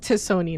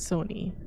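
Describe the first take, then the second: First: The name begins with a t sound before Soni. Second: The name begins directly with an s sound. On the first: The speaker calls it right. "breaking news, it's to Sony" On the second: The speaker calls it wrong. "not Sony"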